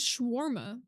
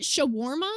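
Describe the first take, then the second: First: "shawarma" said as shWAR-ma, first vowel dropped; own pronunciation. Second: "Shawarma" said as cho-WAR-ma, rising like a question; pronunciation query. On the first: Shown as a demonstration. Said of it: "Is that how you pronounce it". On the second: Retold or imitated. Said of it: "I thought it was shawarma".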